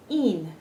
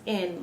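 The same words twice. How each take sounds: First: IN with a pure long ee, like "een"; tense ee vowel in IN; Spanish vowel in IN. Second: IN with the short English vowel, like eh; short, open English IN. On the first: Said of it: "our I's are E's". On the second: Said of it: "This is pronounced in, like e". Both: Shown as a demonstration.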